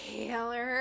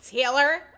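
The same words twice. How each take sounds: First: It is said in a soft, breathy way. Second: It is said in a mean, bitchy way.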